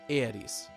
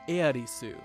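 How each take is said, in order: First: The name ends without the final u sound. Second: The name ends with a clear final u sound. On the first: "there's a tendency to drop the U sound at the end, in this case giving Aeris" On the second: "Aeris' name is written Earisu"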